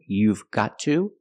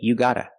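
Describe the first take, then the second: First: Every word is said in full, v included. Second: Gotta is said and the v is dropped. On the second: "we don't pronounce the v sound"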